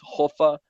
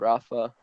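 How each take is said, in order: First: The name starts with a Portuguese breathy h-like sound. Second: The name starts with an English r sound. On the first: The speaker calls it right. "now it's Hofa" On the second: The speaker calls it wrong. "not uh, Rafa"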